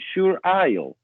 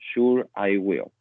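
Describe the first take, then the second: First: I and will are joined into one syllable. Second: I and will are said as separate words. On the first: The speaker calls it wrong. "Tenemos una abreviación del I con el will" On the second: The speaker calls it right. "mucho mejor, utilizar lo que es el I will"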